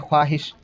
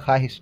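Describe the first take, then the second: First: A 'w' sound is heard after the 'kh'. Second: No 'w' sound is heard after the 'kh'. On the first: This is how the word is written. "लिखाता है" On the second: This is how the word is actually read. "पढ़ते हैं ख्वाहिश, वाव silent कर देते हैं"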